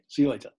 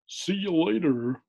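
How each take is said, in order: First: It is said in his usual accent. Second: It is said in an American accent.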